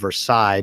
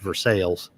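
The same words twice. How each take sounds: First: The name gets its original, French-style pronunciation. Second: The name gets the local Kentucky pronunciation. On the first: This is how the name is properly meant to be said. "It's actually supposed to be called Versailles" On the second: This is how the people who live there say it. "but they pronounce it Versailles"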